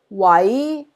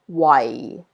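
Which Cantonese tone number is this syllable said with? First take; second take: tone 2; tone 4. First: It is said with Cantonese tone two. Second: It is said with Cantonese tone four.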